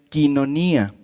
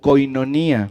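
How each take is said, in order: First: The first syllable sounds like 'kee'. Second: The first syllable sounds like 'koy'. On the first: This is how the word is really pronounced. The speaker calls it right. "realmente se pronuncia quinonía" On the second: This is how most people know the word. The speaker calls it wrong. "la mayoría la ubicamos esta palabra como koinonía"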